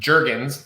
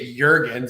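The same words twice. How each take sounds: First: The name has a plain American pronunciation. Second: The name has a European pronunciation. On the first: This is how the family says it. "pronounced Jurgens, like the lotion" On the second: People in Europe say it this way. "that's the European pronunciation"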